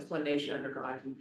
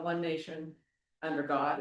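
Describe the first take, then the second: First: There is no pause after "nation". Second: There is a pause after "nation". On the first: The speaker calls it right. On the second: The speaker calls it wrong.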